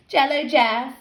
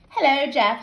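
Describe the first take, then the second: First: "Jello" said with a J in place of the H of hello; Jello slip. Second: Said in the usual way. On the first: Acted. Teasing girl garbles her hello to the boy, "Jello" slip. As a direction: trip on hello so it comes out "Jello". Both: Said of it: "She laughed at her mistake".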